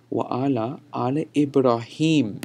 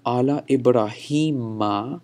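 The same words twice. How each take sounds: First: "Ibrahim" closed on a final m; no ma ending. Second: Slow "Ibrahima" with a clear final ma; ma ending. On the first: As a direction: end Ibrahim on m, with no vowel after. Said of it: "there's no ma added there". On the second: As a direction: stretch the "hi", then add ma to Ibrahima. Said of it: "that's the first Ibrahim there". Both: Shown as a demonstration.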